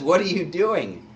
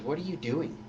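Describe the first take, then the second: First: A louder, higher, firm rebuke; rebuking thief. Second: Said in the usual way. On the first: Acted. Thief rebukes the mocking thief, firm and louder. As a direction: scold him, taking charge. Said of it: "He says". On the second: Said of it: "he says".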